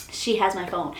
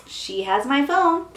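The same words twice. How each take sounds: First: Said in the usual way. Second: "phone" stretched out, higher and louder; slow, certain, hit "phone" hard; emphatic realization. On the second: Retold or imitated. Realizing the sister has her phone, slow emphatic "phone". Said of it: "that's when I'm like".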